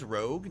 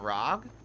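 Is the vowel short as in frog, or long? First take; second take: long; short. First: The vowel is a long o sound. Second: The vowel is short, rhyming with frog. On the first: "Rogue, not Rog?" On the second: "I say Rog like I say frog"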